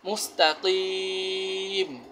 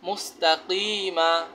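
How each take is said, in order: First: The word ends on the consonant. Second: The word ends with a short vowel. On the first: The reader stops at this word. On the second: The reading continues without stopping.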